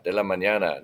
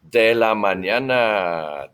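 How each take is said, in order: First: Said in the usual way. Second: Slow, stretched "De la mañana"; drawn-out model phrase. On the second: Shown as a demonstration. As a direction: draw out "mañana" for learners. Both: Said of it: "So repitan".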